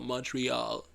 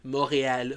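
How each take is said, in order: First: The name is said the everyday English way. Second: The name is said the local way.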